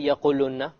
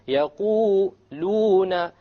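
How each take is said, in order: First: The long vowel is cut very short. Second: The long vowel is held for two counts. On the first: The speaker calls it wrong. "You don't say يَقُولُنَّ. You have to make it long" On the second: The speaker calls it right. "It has to be two harakas"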